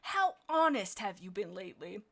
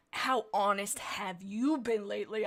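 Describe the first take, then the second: First: "How honest" leaned on, "you" left lighter; reworked hissed inflection. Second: "you" leaned on hard in a slow question; hissed accusation. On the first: Quailfeather challenging Vixen Heart, retried with stress on "How honest". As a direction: put the weight at the front, on "How honest". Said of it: "I had the worst inflection". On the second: Quailfeather challenging Vixen Heart's honesty, hissed with stress on "you". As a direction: hiss the question slowly, weight on "you". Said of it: "Quailfeather hissed". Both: Acted.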